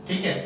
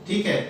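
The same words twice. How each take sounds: Both takes have the same delivery.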